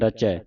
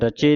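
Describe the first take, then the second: First: The final vowel is an open 'ai' sound. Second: The final vowel is a closed 'e' sound. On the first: The speaker calls it right. "ਇੱਥੇ ਦਲਾਵਾਂ ਲੱਗੀਆਂ" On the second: The speaker calls it wrong. "ਰਚੇ ਨਹੀਂ ਕਹਿਣਾ"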